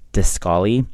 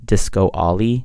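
First: The name is said as one joined word. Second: The name is said as two separate words. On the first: The speaker calls it right. "But it's actually just Discolly" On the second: The speaker calls it wrong. "People started pronouncing it as Disco Ollie because they thought that there was like the word was like two separate words"

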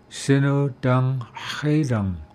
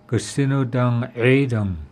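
First: It starts directly with 'sino', no 'ga'. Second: It starts with an extra 'ga' syllable. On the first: This is how southern Skidigit speakers say it. "Skidigit, Sino Dang Haidang" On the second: This is how northern Masset speakers say it. "Masset, Gasino Dang Haidang"

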